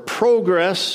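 It is said with a Canadian pronunciation.

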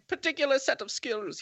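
It is said in a put-on foreign accent. The speaker calls it right. "It's much easier doing the Baron Zemo voice"

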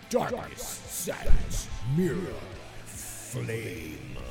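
It is read in a dramatic, theatrical way.

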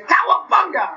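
It is said in Raphael's voice.

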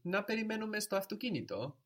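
It is said with a questioning tune.

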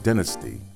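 It is said the British way.

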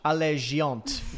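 It is said with a French pronunciation.

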